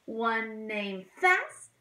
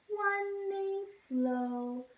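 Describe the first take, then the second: First: Quick little chirp; fast. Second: Slow, drawn-out and sung higher. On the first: Teacher sings the fast blackbird to kids. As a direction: say it quick and bright. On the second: Teacher sings the slow blackbird to kids. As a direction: stretch it out slowly. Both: Shown as a demonstration.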